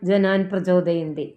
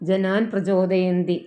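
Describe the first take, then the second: Both takes have the same delivery.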